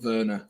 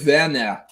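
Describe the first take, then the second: First: The name is said with English pronunciation. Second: The name is said with German pronunciation. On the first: The speaker calls it wrong. "not Werner or Werner" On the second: The speaker calls it right. "And it's Timo Werner"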